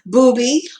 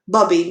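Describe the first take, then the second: First: The first vowel is a long oo sound. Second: The first vowel is a short u sound. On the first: "booby or bubby" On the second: "bubby maybe with the short U"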